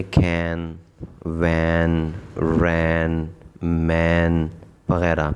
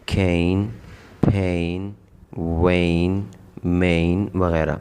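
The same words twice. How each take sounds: First: Short flat a in cain, wain, rain, main; short a sound. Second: کھین، پھین، وین، مین with a gliding ay; long ay sound. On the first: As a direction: say کین، وین، رین، مین with a short clipped a. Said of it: "آواز دے رہا تھا اے کی". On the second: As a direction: stretch the a into ay in each word. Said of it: "اس اے کی آواز بدل گئی". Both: Shown as a demonstration.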